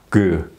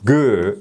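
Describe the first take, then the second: First: The g sound is said gently and softly. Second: The g sound is said hard and forcefully. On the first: The speaker calls it right. "그 하면은 훨씬 발음이 순화되죠" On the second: The speaker calls it wrong. "그가 아니고"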